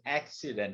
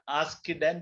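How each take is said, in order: First: The double C is said as K plus S. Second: The double C is not said as K plus S. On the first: The speaker calls it right. "We pronounce it as K and S together" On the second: The speaker calls it wrong. "not like papu"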